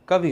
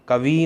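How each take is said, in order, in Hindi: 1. अंतिम 'इ' स्वर छोटा है। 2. अंतिम 'इ' स्वर लंबा है। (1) "कवि होता है" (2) "कवि नहीं होता"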